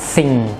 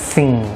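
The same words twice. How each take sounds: No difference in how they are said.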